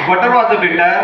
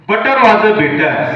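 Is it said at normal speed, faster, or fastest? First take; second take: faster; normal. First: It is said a little faster. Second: It is said at a normal speed.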